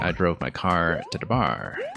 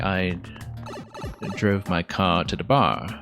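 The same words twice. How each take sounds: First: The final R sounds are clearly pronounced. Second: The final R sounds are dropped. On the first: "that is rhotic" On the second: "that's non-rhotic"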